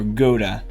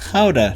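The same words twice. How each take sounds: First: Gouda is said with an English pronunciation. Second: Gouda is said with a Dutch pronunciation.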